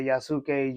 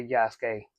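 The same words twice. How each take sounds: First: "Yasuke" in three syllables, yah-SOO-kay; "Yasuke" pronounced yah-soo-kay, as written; spelled-out variant. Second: "Yasuke" in two syllables, YAHS-kay; "Yasuke" squeezed to yahs-kay; short variant. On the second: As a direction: say "Yasuke" with a silent u. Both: Shown as a demonstration. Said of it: "it's not wrong either way".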